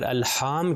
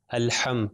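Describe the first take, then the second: First: الحام with the a stretched long, slowly; wrong long a. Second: الحم with a short clipped a; short a, correct. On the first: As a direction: drag out the vowel in الحام as the mistake. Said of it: "تو وہ غلط تلفظ ہو جائے گا". (الحام لمبا کھینچ کر، غلط تلفظ) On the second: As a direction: say الحم without stretching the vowel. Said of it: "ہم اس کو بڑھاتے نہیں". (الحم میں زبر مختصر، کھینچے بغیر) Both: Shown as a demonstration.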